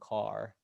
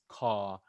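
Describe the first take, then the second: First: It is said with the final r sound. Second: It is said without the final r sound.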